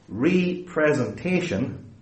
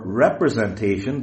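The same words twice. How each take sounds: First: "representation" as RE-presentation, slow, long "ree"; stress on first syllable RE. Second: "representation" as one word, short "rep" opening; run-together representation. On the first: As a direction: split "representation" into ree, then pre-zen-TA-tion. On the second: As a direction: say "representation" as rep-re-zen-TA-tion, no split. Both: Shown as a demonstration. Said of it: "depending on how you emphasize it".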